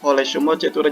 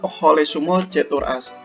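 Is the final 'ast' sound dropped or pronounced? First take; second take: dropped; pronounced. First: The final ast is dropped, ending in e. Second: The final word ast is fully pronounced. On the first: This is the everyday casual way of saying it. "Jadi asnya tuh dihilangkan" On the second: This is the formal way of saying it. "dibacanya kan Hole Sumo Cetur As"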